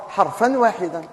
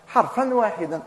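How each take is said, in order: Both takes have the same delivery.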